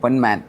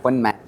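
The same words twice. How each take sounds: First: The second part is said as English 'man'. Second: The second part is said as Malayalam 'maan'. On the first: The speaker calls it right. "പൊൻ മലയാളത്തിലും മാൻ ഇംഗ്ലീഷിലും" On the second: The speaker calls it wrong. "പൊന്മാനല്ല"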